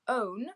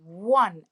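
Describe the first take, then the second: First: The word begins with a vowel sound. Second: The word begins with a w sound. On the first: The speaker calls it wrong. "We don't say own" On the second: The speaker calls it right. "the first sound we hear is a w"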